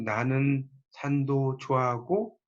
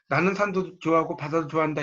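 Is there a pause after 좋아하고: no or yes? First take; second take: yes; no. First: It is read slowly with a break midway. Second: It is read in one go without a break. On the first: "천천히 "나는 산도 좋아하고" 그러면 이제 좀 끊겠죠?" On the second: "이렇게 한 번에 읽을 수 있지만"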